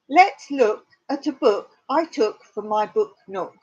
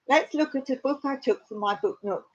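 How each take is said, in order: First: The phrase is said at a normal pace. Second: The phrase is said at a fast pace.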